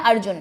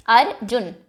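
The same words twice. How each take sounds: First: Said in the usual way. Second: अर्जुन said as अर-जुन, two clapped beats; अर्जुन broken in two with a clap on each part; split into syllables. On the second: Shown as a demonstration. Teacher claps out अर्जुन for children, syllable by syllable. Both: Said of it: "अर्जुन को दो part में आप break कर सकते हैं".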